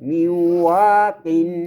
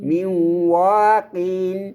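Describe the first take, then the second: The two takes are said the same way.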